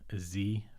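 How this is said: The letter is said the American way, zee.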